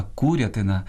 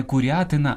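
First: Курятина stressed on КУ; stress on first syllable. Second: Курятина stressed on РЯ; wrong second-syllable stress. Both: Shown as a demonstration. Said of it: "правильно сказати".

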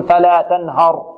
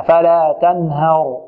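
First: تنهر with a thick, backed "haa" before the ر; over-heavy haa. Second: تنهر slowly, with ه thin and light before heavy ر; light haa. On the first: Retold or imitated. Teacher mimicking readers who thicken the haa, heavy ه. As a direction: imitate the mistake, ه in تنهر made heavy. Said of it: "البعض كذلك يفخم الهاء". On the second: Shown as a demonstration. Teacher correcting the heavy haa, light ه. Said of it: "لا، نرققها".

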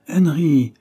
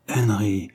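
First: Higher, louder reproachful call of the name; chiding call. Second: Said in the usual way. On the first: A narrator's reading. Mother calling her fretting son to order, chiding. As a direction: call the boy to order, voice raised.

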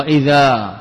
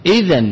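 First: إذا said "idhaa", long open ending; original form. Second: إذا said "idhan", closing on n; tanween form. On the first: (إذا بالألف دون تنوين) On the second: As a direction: end إذا with a nasal n. (إذًا بالتنوين) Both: Shown as a demonstration. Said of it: "أصلها إذا".

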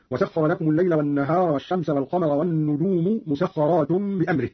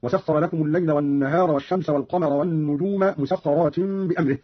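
First: Said in the usual way. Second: والنجوم as "wan-nujuma", مسخرات as "musakharatin"; Qalun's والنجوم مسخرات, -a and -in endings; accusative endings. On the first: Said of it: "قرأ قالون بنصب النجوم ومسخرات". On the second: Shown as a demonstration. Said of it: "بنصب النجوم ومسخرات هكذا".

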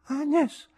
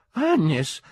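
First: Put-on high, blurred drunken voice; indistinct drunken call. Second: Put-on high, loud drunken cry; loud exclamation. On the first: Drunk man recognising his friend at the theatre, indistinct. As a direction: say AGNES indistinctly, high and tipsy. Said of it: "dissi indistintamente". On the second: Drunk man calling his friend in theatre, exclaiming. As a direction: cry AGNES out far too loudly. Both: A narrator's reading.

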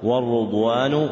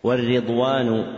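First: والرضوان said "war-rudwanu", with a u after the r; damma on the ra. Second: والرضوان said "war-ridwan", with an i after the r; kasra on the ra. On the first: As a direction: say والرضوان with "ru" at the start. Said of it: "الراء وضمها لغتان صحيحتان". (والرضوان بضم الراء) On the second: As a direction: say والرضوان with "ri" at the start. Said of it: "بكسر الراء وضمها لغتان صحيحتان". (والرضوان بكسر الراء) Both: Shown as a demonstration.

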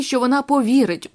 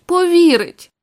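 First: Said in the usual way. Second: Повірить pushed higher on the repeat; anguished higher stress on повірить; emphatic repeat. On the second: A narrator's reading. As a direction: hit повірить harder, pitched up in distress. Distraught husband repeats the word.

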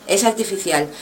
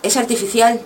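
First: "es" leaned on, "artificial" dropping softly to a close; quiet conclusive fall on "artificial"; falling, settled. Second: "artificial" lifted at the end like a question; a light upward turn on "artificial"; rising on artificial. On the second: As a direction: let "artificial" rise, leaving it open. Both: Shown as a demonstration. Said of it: "Como ves, es artificial".

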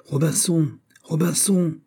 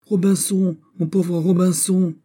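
First: High, plaintive parrot call; strident, tearful parrot cry. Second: Very high wail, drawn out at the end; more strident, tearful parrot. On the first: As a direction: cry out shrilly like a distressed parrot. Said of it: "une voix stridente et pleurée". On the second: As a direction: wail shrilly like a desperate parrot. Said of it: "plus stridente encore et plus éplorée". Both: A narrator's reading.

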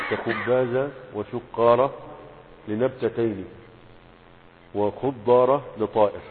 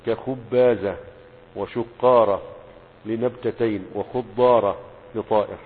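First: كخبازة وشقارة said slowly and louder, u vowel stretched; careful pronunciation. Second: كخبازة وشقارة dictated slowly, louder, with clear u vowel; teacher dictating خضارة as khu-ḍḍā-ra; careful pronunciation. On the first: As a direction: dictate وخضارة slowly with doubled ḍ. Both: Shown as a demonstration. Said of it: "انتبهوا للنطق يا شباب".

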